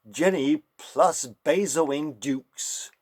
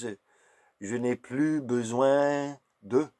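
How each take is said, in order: First: It is said with an American English pronunciation. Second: It is said with a French pronunciation. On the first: "if an American would pronounce that"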